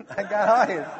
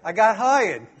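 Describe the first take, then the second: First: Saying it again through a real laugh. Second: Said in the usual way. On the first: Real, not acted. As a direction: chuckle the line at his own luck.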